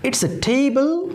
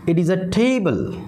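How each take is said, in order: First: It is shortened to one syllable, 'it's'. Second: It is said as two separate words, 'it is'.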